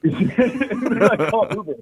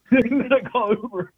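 First: Giggling through the words; laughing. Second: Laughing harder, pitched up; laughing, higher. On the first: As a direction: laugh while you say it. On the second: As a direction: say it again, still laughing. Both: Real, not acted.

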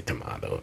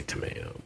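First: Tomato said low as tuh-MAH-toh; tomato, middle syllable "MAH". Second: Tomato said softly as tuh-MAY-oh; tomato, middle syllable "MAY". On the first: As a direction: quietly give tomato an open ah. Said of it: "I don't say tomato". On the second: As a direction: quietly give tomato a long a, as in "day". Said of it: "I say tomato". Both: Shown as a demonstration.

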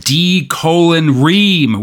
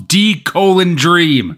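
First: "[name]" with the D sound split off from "Ream". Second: "D colon Dream" slowly, with "Dream" said in full. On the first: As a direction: say "D colon" then "Ream" as its own word, no D on it. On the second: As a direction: stretch out "D colon Dream", the D back on "Dream". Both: Shown as a demonstration. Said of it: "which I refuse to pronounce as Dream".

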